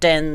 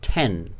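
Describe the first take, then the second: First: The first sound has no puff of air. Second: The first sound has a puff of air. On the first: This is how non-native speakers say it. "We say uh, ten" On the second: This is how native speakers say it. "they say ten"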